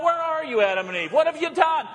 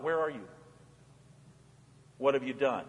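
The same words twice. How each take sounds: First: Calling out. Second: Lower, softer tender calling; soft searching call, not demanding; gentle call. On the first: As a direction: call out high as if across a garden. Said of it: "God calls out". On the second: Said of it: "He just calls out". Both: Acted.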